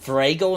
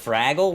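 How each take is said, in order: First: It is said with a Midwestern-sounding vowel. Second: It is said with a plain, non-Midwestern vowel. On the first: Someone else said it this way. The speaker calls it wrong. "My wife just yesterday said Fraggle" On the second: This is how it is normally said. The speaker calls it right. "instead of Fraggle"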